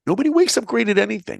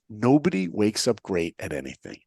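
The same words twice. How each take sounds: First: Much higher, louder and faster; emphatic repeat. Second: Said in the usual way. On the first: Shown as a demonstration. Speaker repeats his motto to the audience, louder and faster. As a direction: hammer the line home to the listeners. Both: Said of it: "And remember these words".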